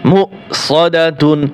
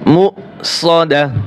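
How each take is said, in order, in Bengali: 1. শব্দটি পূর্ণ -tun প্রত্যয় দিয়ে শেষ হয়। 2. শব্দটি -da তে এসে থেমে যায়। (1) "তা দুই পেশতুন মু সদাতুন" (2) "অক্ষ করলে কি হবে"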